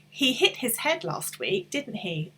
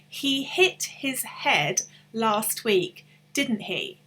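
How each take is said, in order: First: The sentence is said at normal conversational speed. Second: The sentence is said slowly and carefully.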